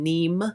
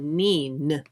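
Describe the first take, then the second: First: The word ends with an M sound. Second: The word ends with an N sound. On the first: The speaker calls it wrong. "I was saying it wrong" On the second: The speaker calls it right. "It's N E E N, so Neen"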